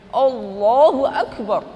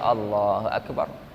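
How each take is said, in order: First: It is said in an embellished, showy way. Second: It is said in a plain, ordinary way.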